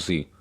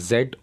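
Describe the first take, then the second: First: The letter is said as zee. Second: The letter is said as zed. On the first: This is the American way of saying it. "जो जी है वो American English में इसको pronounce किया जाता है" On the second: This is the British way of saying it. "जो जेड है वो ब्रिटिश इंग्लिश में बोला जाता है"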